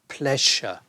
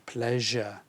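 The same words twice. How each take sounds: First: The middle consonant is a voiceless sh sound. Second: The middle consonant is a voiced zh sound. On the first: The speaker calls it wrong. "We don't have that sh in that word pleasure" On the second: The speaker calls it right. "It's actually the je"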